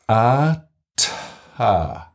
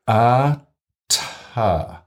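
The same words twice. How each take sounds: The two takes are said the same way.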